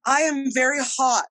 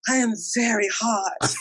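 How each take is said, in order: First: It is said as a plain complaint about heat. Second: It is said flirtatiously, boasting about looks.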